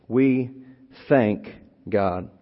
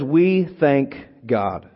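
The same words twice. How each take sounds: First: Said in the usual way. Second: Each word drawn out and weighted, "We thank God" at half pace; slow emphatic reading. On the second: Shown as a demonstration. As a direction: lay it down slowly, word by word. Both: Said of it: "then he says it".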